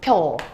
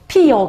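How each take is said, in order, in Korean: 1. 한 음절로 합쳐졌어요, pyeo요. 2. 두 음절이고 y 소리가 끼어요, pi-yeo요. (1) "조금 편하게 발음하려고 보니까 줄여서 펴라고 해도 되는 거지" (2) "그리고 한 가지 더"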